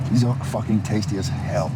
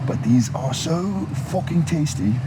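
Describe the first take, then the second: First: Said in the usual way. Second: Slipping into a higher British accent; emphatic, raised-pitch British accent. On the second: Real, not acted. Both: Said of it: "switched to a British accent there".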